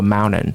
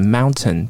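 First: It is said in an American accent. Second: It is said in a British accent with clear T.

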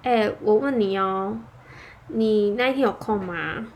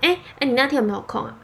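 First: It sounds hesitant, weak and apologetic. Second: It sounds relaxed and normal, like everyday talk.

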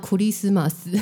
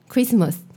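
First: It is said with Japanese syllable-by-syllable pronunciation. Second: It is said with an English accent.

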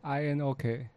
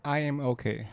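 First: It is said with a Taiwanese accent. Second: It is said with a standard English accent.

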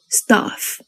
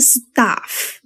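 First: The vowel is said with an open jaw. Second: The vowel is said with spread lips. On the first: The speaker calls it right. "嘴巴打开念so stuff" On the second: The speaker calls it wrong. "我们不要念stuff"

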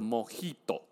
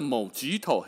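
First: The j is said as a breathy h sound. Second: The j is said as a hard j sound. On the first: The speaker calls it right. "那叫做Mojito。J 不发G，要发呵" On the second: The speaker calls it wrong. "那个不是叫做Mojito"

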